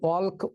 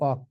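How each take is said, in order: First: The L sound is pronounced before the K. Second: The L sound is silent before the K. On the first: The speaker calls it wrong. "অল্ক উচ্চারণ করি না" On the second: The speaker calls it right. "উচ্চারণ করি অক"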